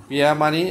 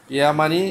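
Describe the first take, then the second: No difference in how they are said.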